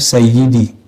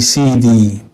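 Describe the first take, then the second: First: The word is said in full, three syllables. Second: The word is shortened to two syllables. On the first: This is the fluent classical reading. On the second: This is the everyday dialect form. "dalam dialek harian jadi Sidi"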